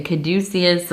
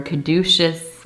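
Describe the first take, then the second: First: Caduceus said kuh-DOO-see-us; alternate pronunciation. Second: Caduceus said kuh-DOO-shus; alternate pronunciation. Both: Shown as a demonstration. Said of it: "however you wanna say it".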